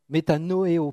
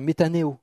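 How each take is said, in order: First: "métanoéo" with o sounded before é; "métanoéo", each vowel of no-é-o sounded; corrected Greek. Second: "métanéo" with the o after the n dropped; "métanéo", going straight from n to é; mispronounced Greek. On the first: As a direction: say "métanoéo" in five syllables, me-ta-no-é-o. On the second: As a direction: say "métanéo" in four syllables, me-ta-né-o. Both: Real, not acted. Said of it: "pardon, métanoéo".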